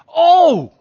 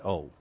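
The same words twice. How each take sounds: First: The word is said with intense, passionate feeling. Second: The word is said flatly, without feeling. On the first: The speaker calls it right. "It's passion" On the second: The speaker calls it wrong. "you can't just say"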